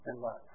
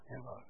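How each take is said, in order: First: Said in the usual way. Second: Barely voiced, much softer; soft near-whisper. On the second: Shown as a demonstration. Pastor repeating the key words to the congregation, hushed. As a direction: let the repeat fall to almost nothing.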